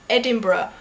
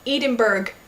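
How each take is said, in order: First: It is said with a British pronunciation. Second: It is said with an American pronunciation. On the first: The speaker calls it right. "instead of" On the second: The speaker calls it wrong. "when you say things like"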